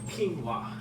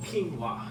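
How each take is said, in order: First: The word is said with two syllables. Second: The word is said with two syllables.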